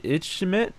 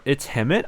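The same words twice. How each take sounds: First: "Itchimit" with a CH in the middle, questioning; unsure name pronunciation. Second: "It's Hemit" split as its-HEM-it, rising; alternative name pronunciation. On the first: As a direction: try "Itchimit" as itch-im-it, rising unsurely. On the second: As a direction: try "It's Hemit" with an audible H, questioning. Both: Shown as a demonstration. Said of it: "which is the right pronunciation".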